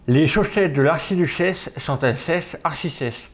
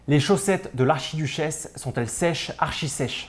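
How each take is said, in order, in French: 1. La parole est étouffée, comme si quelque chose bloquait la bouche. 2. La parole est claire et bien articulée du début à la fin. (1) "tu viens le glisser entre les dents" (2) "tu peux parler"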